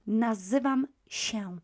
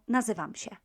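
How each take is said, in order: First: "nazywam się" measured, się as nasal "sheh-oon"; careful, full ending. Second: "nazywam się" run together, się as "sheh"; very quick. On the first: Teacher recapping the careful form, measured, nasal "nazywam się". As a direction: separate "nazywam" and "się", holding the nasal tail. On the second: Teacher showing the quick form, rapid "nazywam się" with no nasal tail. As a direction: rattle off "nazywam się" as one word. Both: Shown as a demonstration. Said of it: "very quickly".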